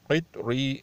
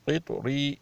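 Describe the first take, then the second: First: قطری with an echoing bounce on the ta; qalqala. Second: قطری with the ta stopped flat; no qalqala, wrong. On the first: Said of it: "اس پہ کلکلہ ہونا چاہیے". (قطری میں قلقلہ کے ساتھ) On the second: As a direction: say قطری without bounce on the ta. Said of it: "قطری نہیں". (قطری بغیر قلقلہ کے، غلط) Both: Shown as a demonstration.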